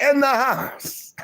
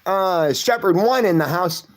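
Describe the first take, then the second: First: "In the house" pitched much higher and drawn out slowly; hype man call. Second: Said in the usual way. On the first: Retold or imitated. Echoing a viewer's chat greeting, high drawn-out hype call. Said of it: "Shepherd One is like". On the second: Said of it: "that's what Shepherd One says".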